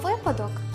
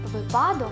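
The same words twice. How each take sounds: First: The stress is on the first syllable. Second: The stress is not on the first syllable. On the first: The speaker calls it right. "має тільки один наголос на першому складі" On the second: The speaker calls it wrong. "неприродний для української мови"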